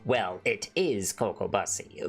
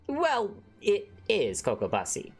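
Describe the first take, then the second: First: It is said in a darker character voice. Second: It is said in his normal voice.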